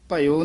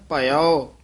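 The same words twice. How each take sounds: First: The word ends in a plain 'o' sound. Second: The word ends in an 'au' sound. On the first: The speaker calls it wrong. "ਇਹ ਭਇਓ ਨਹੀਂ ਕਹਿਣਾ, ਪੱਬਾ ਈੜੀ ਸਿਆਰੀ ਊੜੇ ਖੁੱਲੇ ਮੂੰਹ ਵਾਲਾ ਭਇਓ" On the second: The speaker calls it right. "ਇਹ ਹੈ ਭਇਓ। ਪੱਬਾ ਈੜੀ ਸਿਆਰੀ ਐੜਾ ਊੜਾ ਬੰਦ ਮੂੰਹ ਵਾਲਾ ਔਂਕੜ ਭਇਓ"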